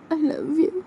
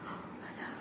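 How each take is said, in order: First: High voiced and rising; girl voice saying I love you; tender confession. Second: Breathless whisper; whispered I love you; whispered confession. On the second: Acted. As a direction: barely whisper it.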